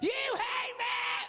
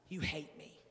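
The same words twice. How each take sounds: First: It is said dramatically, with big emotion. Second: It is said flatly, without drama.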